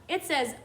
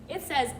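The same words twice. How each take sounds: Both takes have the same delivery.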